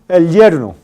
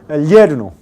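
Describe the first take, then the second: Both takes have the same delivery.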